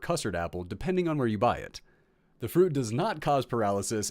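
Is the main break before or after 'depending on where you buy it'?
after. The phrase break comes after 'buy it'. The speaker calls it right.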